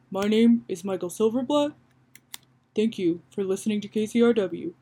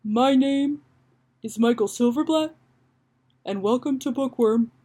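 First: More confident radio host; lightly voiced host, assured and continuous; Michael Silverblatt. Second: Halting radio host, phrases set apart; tentative host intro with long pauses; Michael Silverblatt. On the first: Host signing off to radio listeners, confident light impression. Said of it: "he's more confident". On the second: Acted. Host welcomes listeners to a book show, tentative careful impression. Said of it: "let me try to hone Michael Silverblatt".

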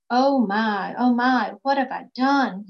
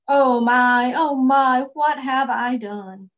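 First: A mild wail of regret, slightly louder; lightly wailed remorse, not overdone. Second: Louder moaning lament, slowing at the end. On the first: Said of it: "he wailed". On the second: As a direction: moan it out like a sleepless king. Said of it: "he moaned". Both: Acted.

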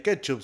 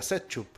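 First: Said in the usual way. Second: "setchup" starting with an S sound; soft-C pronunciation. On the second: Shown as a demonstration. Arguing how ketchup with C would sound, soft-C "setchup". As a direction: say "setchup", S in place of K. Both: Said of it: "no se pronunciaría ketchup, sería setchup".

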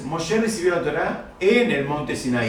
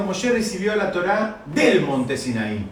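First: Slow, leaning on "en" as the expected word; "en" lightly stressed, teacher's model phrasing. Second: Slow, pointed weight on "del"; "del" stressed, showing what the text actually says. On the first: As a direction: stress "en" firmly, as the correct version. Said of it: "lo que tendríamos que haber dicho es". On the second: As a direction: hit "del" to contrast with "en". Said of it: "Pero acá está diciendo". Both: Shown as a demonstration.

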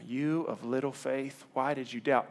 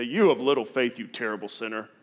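First: Slow, soft, tender rebuke read; gentle reading. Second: Mock stern "You of little faith" snapped as scolding; harsh rebuke. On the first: Jesus to sinking Peter, slow gentle words. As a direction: say "You of little faith" slowly and softly. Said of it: "don't read this wrong". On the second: Wrong reading, Jesus scolding Peter, mock stern. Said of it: "I think Jesus didn't say". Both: Shown as a demonstration.

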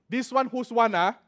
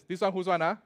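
First: Lively Singlish "This one whose one ah?", higher and louder; Singaporean accent. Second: Singaporean accent. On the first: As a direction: ask it Singaporean-style. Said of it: "One. It's a very good word". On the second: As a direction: ask it again, relaxed Singlish. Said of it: "Whose thing is this?". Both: Shown as a demonstration.

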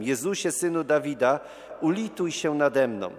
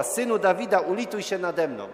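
First: Raised-voice plea, moderately loud; calling out. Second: High, loud imitated plea, easing at the end; calling louder. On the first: Retold or imitated. Blind beggar calls after Jesus, calling out with moderate force. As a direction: imitate a beggar calling out for mercy. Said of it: "zaczyna z całych sił wołać". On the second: Blind beggar won't give up on Jesus, calling even louder. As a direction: cry out more insistently as the beggar. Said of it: "więc jeszcze głośniej woła".

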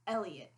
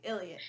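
First: "Elliot" in a Maryland accent; plain Maryland "Elliot", opening on a clear E. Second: "Elliot" with a slight Southern accent; lightly Southern "Elliot"; semi-Southern accent. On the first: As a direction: give "Elliot" the speaker's native Maryland sound. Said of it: "how I would say it in my Maryland accent". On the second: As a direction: lean Southern on "Elliot", like "Illiot". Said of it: "a Southern family, I say Elliot". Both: Shown as a demonstration.

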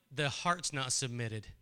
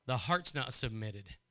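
Both takes have the same delivery.

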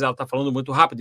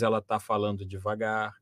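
First: Rapid run of words, demonstrating fast speech; fast talking. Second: Slower talking. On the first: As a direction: rattle it off quickly. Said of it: "varia muito a velocidade da fala dela". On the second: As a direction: ease off, lower and softer. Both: Shown as a demonstration.

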